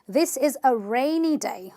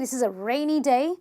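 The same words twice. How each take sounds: First: Rainy is stressed on its first syllable. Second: Rainy is stressed on its second syllable. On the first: The speaker calls it right. "I stress on syllable number one" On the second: The speaker calls it wrong. "I can't say"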